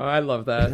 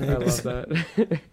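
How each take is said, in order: First: Said in the usual way. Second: Slow, savoring repeat; slow drawn out. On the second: Shown as a demonstration. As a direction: stretch it out slowly.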